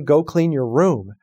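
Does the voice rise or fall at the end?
falls. The voice falls at the end.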